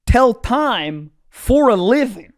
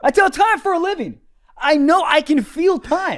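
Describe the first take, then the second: First: Each word spaced out for weight; measured, indignant mock boast; slow, emphatic declaration. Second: High-pitched, worked-up insistence; pitched way up, defensive protest; indignant mock boast. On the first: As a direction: spell it out slowly and pointedly. Acted boast, first slow take. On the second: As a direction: blurt it in comic outrage. Same boast repeated, now high.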